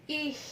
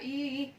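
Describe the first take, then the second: First: The word ends with a fricative sound. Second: The word ends on a bare vowel. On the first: The speaker calls it right. "tapi ich. Ya ada ch" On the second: The speaker calls it wrong.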